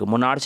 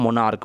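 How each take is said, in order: First: The word ends with a ch sound. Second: The word ends with a k sound. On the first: The speaker calls it wrong. "मोनार्च नहीं पढ़ते हैं" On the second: The speaker calls it right. "क जैसा उच्चारण होता है"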